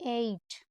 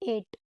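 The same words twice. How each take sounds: First: The vowel glides from 'e' toward 'ee'. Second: The vowel is one steady 'e' sound. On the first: The speaker calls it right. "It's एट" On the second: The speaker calls it wrong. "This is not एट"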